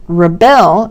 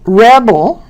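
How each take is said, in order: First: "rebel" as the verb, re-BEL; second-syllable stress. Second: "rebel" as the noun, REB-el; first-syllable stress. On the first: Teacher showing stress changes grammar, second-syllable "rebel". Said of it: "is a verb". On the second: Teacher showing stress changes grammar, first-syllable "rebel". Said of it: "Word stress sometimes also affects". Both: Shown as a demonstration.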